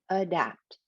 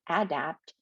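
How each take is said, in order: First: The first vowel is reduced to schwa. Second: The first vowel is a full vowel. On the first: The speaker calls it right. "it's adapt, because dap is that stressed syllable" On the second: The speaker calls it wrong. "They don't say adapt"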